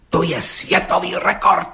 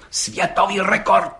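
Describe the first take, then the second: First: Excited. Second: Slow, higher and solemn. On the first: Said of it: "vyhrkl rozčileně". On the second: Gendarme repeating it to the judge, solemnly. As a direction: proclaim it like a verdict. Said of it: "opakoval četník Hejda slavnostně". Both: Acted.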